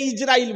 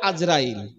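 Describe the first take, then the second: First: The name begins with an 'i' sound. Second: The name begins with an 'a' sound. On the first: This is the form used everywhere in the world. The speaker calls it right. "সারা পৃথিবীতে ইসরাইল বলে" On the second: This is the form used only locally. The speaker calls it wrong. "আর এই বাংলাদেশে বলে আজরাইল"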